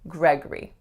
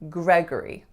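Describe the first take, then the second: First: The second syllable is reduced to schwa. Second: The same.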